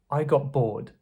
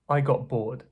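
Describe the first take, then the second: First: The t in got sounds like p. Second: The t in got sounds like p.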